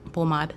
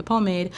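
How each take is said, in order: First: "pomade" as Haitian po-MAHD, open a in the end. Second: "pomade" as American PO-mayd, long a in the end. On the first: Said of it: "but because I'm Haitian". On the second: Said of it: "Americans call it the pomade". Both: Shown as a demonstration.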